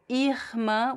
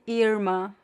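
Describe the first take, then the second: First: The R is made in the throat. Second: The R sounds like an English R. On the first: "with the R in the throat" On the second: "like similar to the English R"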